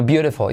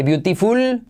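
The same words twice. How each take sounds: First: "beautiful" as BIU-re-fo; correct soft T. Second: "beautiful" as BIU-ti-ful with a hard T; wrong pronunciation. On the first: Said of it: "sino beautiful". ("beautiful" con T como R suave) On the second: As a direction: read "beautiful" with a clear T and full L. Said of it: "No se dice beautiful". ("beautiful" con T fuerte) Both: Shown as a demonstration.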